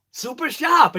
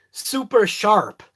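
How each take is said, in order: First: High-pitched Boston "Super sharp", no R's; Boston accent. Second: "super sharp" slow, with both R's carefully sounded; R's pronounced. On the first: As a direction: let "Super sharp" come out Bostonian, supa shahp. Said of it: "It just comes out". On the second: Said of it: "Doesn't sound right". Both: Shown as a demonstration.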